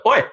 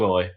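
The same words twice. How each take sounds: First: Oi clipped short and punched; short, sharp oi. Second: Oi drawn out long and even. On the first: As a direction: snap a quick oi. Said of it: "It's not like". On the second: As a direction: stretch the oi out. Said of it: "But it's a long oi". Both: Shown as a demonstration.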